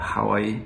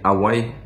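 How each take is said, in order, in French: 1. Le mot commence avec un son h. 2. Le mot commence sans son h. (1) "on ne dit pas Hawaï" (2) "on dit Hawaï"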